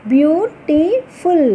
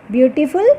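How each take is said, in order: First: Very slow, each syllable pulled apart, falling at the end. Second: Said in the usual way. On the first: Shown as a demonstration. Teacher sounding out syllables slowly for the class. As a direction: stretch the word out beat by beat.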